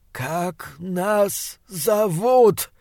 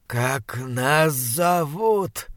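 First: Slower and higher creature demand; monster voice. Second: Monster voice. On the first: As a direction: press the question, menacing and slow. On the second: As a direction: drag each word like a rotting beast. Monster voice, slow and far. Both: Acted.

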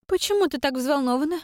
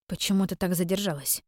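First: Much higher, rising почему, teasing; sly sister's question. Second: Level, unsmiling "почему" with a falling end; frowning question. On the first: Acted. Sister needling Iren about her worry, high teasing rise. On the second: A narrator's reading. Iren questioning her late sister, frowning and level. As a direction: ask it flatly, with a frown in the voice. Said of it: "хмуро спросила её я".

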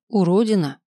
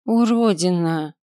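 First: Short, mildly grumbled, falling at the end; grumbled insult. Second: Slow, drawn-out insult, mildly spat; выплюнуть оскорбление. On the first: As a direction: grumble it briefly as a last word. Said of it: "пробурчав ещё раз". (коротко, слегка ворчливо) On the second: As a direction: spit the word out slowly, with understated contempt. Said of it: "выплюнула Рата". (слегка презрительно, врастяжку) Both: A narrator's reading.

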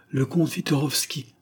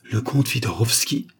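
First: Higher-pitched servant's announcement. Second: Mildly startled question, rising at the name; surprised echo. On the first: Chasseur announces the count to two waiting women, announcing. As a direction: announce a visitor's name. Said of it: "se fait annoncer". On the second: Two women hear the count announced, mildly surprised exclamation. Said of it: "s'écrièrent-elles toutes les deux". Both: A narrator's reading.

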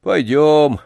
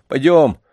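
First: Drawn-out resigned echo; understated gloom, giving in meekly; dejected, resigned. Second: Higher, louder short command; brisk urging. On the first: Old man submitting to the boy's order, dejected and resigned. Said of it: "уныло и покорно повторил старик". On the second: Boy telling grandfather to get going, firm call. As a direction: urge the old man to move. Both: A narrator's reading.

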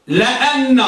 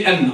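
First: لأن said la-anna, with an open a after the l; teacher's model of لأن as la-anna, never li-anna; fatha on lam. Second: لأن said li-anna, with i after the l; quick, rejected version of لأن as li-anna; wrong vowel on lam. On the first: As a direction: open the first syllable of لأن to "la". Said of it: "بفتح اللام". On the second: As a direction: show the mistaken kasra in لأن. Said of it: "لا، بفتح اللام". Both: Shown as a demonstration.

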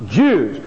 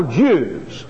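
First: Jews again, low and falling; emphatic Jews repeated. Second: Jews said low and falling, set apart; slow weighty Jews; emphatic Jews. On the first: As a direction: hammer Jews a second time. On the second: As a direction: lean on Jews, low and deliberate. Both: Shown as a demonstration. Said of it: "Underline in your Bible".

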